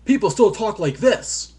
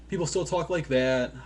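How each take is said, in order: First: Loud, high, hammed-up game dialogue; badly acted, over-projected line; bad voice acting. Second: Said in the usual way. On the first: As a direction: overact it like a cheesy game cutscene. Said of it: "bad voice acting is still there".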